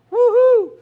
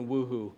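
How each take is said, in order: First: "woohoo" called out loud and bright like a cheer; cheerful woohoo. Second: Said in the usual way. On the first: Retold or imitated. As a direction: shout "woohoo" like a party cheer. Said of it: "It's not just like a woohoo". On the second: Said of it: "more than a woohoo".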